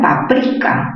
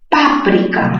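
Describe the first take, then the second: First: The stress is on the syllable pri. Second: The stress is on the syllable pa. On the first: "mayor fuerza en pri" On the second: "mayor fuerza en pa"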